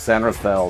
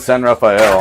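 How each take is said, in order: First: Rafael is said the way locals say it. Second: Rafael sounds like the Ninja Turtle's name. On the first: This is how locals say the name. The speaker calls it right. "It's San Rafael. Thank you very much" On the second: This is how outsiders say the name. The speaker calls it wrong. "he's not a Ninja Turtle"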